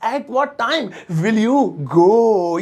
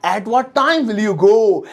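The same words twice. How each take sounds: First: Very slow, word by word, a different voice; slow, syllable by syllable; slow repeat. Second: Slow, spelled-out English; teacher reading slowly for students; slow model sentence. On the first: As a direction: drill it slowly for the class. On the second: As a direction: say each word slowly and clearly. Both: Shown as a demonstration. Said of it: "अब जैसे मुझे कहना है".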